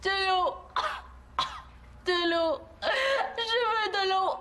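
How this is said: It sounds weak and dying.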